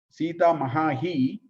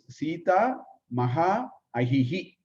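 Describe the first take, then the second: First: The two vowels merge into one long vowel. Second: The two words are said separately.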